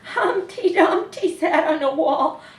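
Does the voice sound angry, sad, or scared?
scared. The line is read in a frightened voice. "Or we could read it scared"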